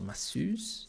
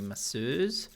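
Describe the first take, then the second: First: The word has an American pronunciation. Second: The word has a non-American pronunciation.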